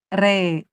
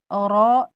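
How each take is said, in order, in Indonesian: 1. Vokalnya bunyi e. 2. Vokalnya bunyi tebal, seperti o. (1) "tapi re" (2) "tidak oro"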